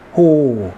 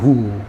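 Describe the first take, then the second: First: The vowel is an open o sound. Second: The vowel is a closer u sound. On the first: The speaker calls it right. "불 호자이기 때문에 호" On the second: The speaker calls it wrong. "호를 후 합니다"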